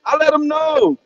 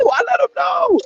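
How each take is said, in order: First: Said in the usual way. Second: Victory-lap yell; triumphant shout. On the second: Real, not acted. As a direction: shout it like you just won the argument. Boasting about shutting cousin up.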